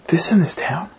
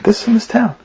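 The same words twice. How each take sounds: First: Half-whispered, stunned repeat; hushed echo question. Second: "This in this town" pitched high as a plain answer; retold answer. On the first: Retold or imitated. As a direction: echo it softly as a disbelieving question. Man echoes the name in disbelief. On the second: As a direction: say "This in this town" higher, as a statement. Woman's answer, then echoed question.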